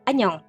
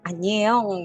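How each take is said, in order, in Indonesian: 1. Vokal tengahnya bunyi o biasa. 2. Vokal tengahnya dibaca e lalu o. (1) "Tapi itu dibacanya O aja" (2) "bukan anyeong gitu ya"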